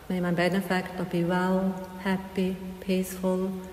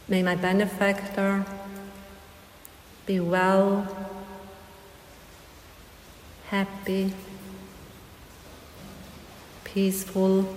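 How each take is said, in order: First: The phrase is said fast. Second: The phrase is said slowly.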